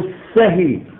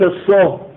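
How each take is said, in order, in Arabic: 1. تنتهي الكلمة بصوت صائت. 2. تنتهي الكلمة بصوت صامت. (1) "وكاء السهي" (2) "وليس السه كما ينطق به بعض الطلبة"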